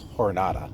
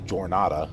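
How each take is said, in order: First: The word begins with an h-like sound. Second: The word begins with an English j sound. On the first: The speaker calls it right. "it's jornada. ... pronounced that with like an H" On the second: The speaker calls it wrong. "you don't say jornada"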